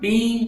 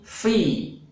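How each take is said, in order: First: It starts with a p sound. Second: It starts with an f sound. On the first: The speaker calls it wrong. "bukan pi" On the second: The speaker calls it right. "tetapi fi"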